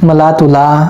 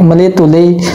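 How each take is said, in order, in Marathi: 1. हे शब्द प्रमाण मराठीतील a स्वराने संपतात. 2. हे शब्द विदर्भ बोलीतील e स्वराने संपतात. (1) "असं नाही" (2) "आपली विदर्भ स्टाईल आहे मित्रांनो"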